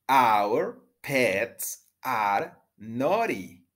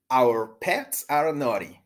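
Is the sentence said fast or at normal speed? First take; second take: normal; fast. First: The sentence is said at normal speed. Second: The sentence is said more quickly.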